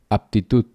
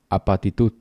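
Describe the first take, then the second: First: The double consonant is said without a vowel. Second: A vowel is inserted between the two consonants.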